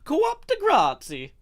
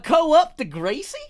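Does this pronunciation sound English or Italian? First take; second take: Italian; English. First: It is said with an Italian-sounding accent. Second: It is said with a plain English sound.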